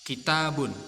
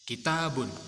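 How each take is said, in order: No difference in how they are said.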